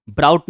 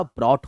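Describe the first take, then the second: First: ब्राउट said with an "ow" vowel like "out"; wrong pronunciation. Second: ब्रॉट said with a short "aw" vowel like "brought"; right pronunciation. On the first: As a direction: say ब्राउट rhyming with "shout". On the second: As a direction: say ब्रॉट with an open "aw", no "ow" glide. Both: Shown as a demonstration. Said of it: "right pronunciation".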